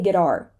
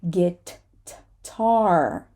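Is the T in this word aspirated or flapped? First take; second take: flapped; aspirated. First: The T is a soft flap. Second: The T has a strong puff of air. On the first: The speaker calls it wrong. "I can't say guitar" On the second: The speaker calls it right. "So I have to add extra air to the T"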